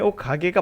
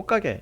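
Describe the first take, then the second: First: Each sound is said clearly and carefully. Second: The sounds are said fast and run together. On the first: "발음이 옷가게가 맞아요" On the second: "자연스럽게 빠르게 하다 보면 옷가게 이렇게 되는 것"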